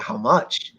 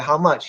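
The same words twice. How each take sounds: First: "much" rising from a low, subdued start; musing echo question. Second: Said in the usual way. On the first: Retold or imitated. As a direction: echo "How much" back, lower, stalling with a rise on "much". Seller echoes the question, stalling.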